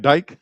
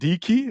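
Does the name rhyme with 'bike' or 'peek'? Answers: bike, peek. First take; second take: bike; peek. First: The name rhymes with 'bike'. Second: The name rhymes with 'peek'. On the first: The speaker calls it wrong. "What I call the man" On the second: The speaker calls it right. "I'm gonna try to remember that"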